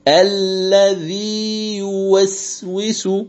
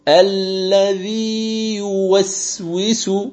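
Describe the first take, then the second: First: The long vowel is held before a separate y. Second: The long vowel is held before a separate y.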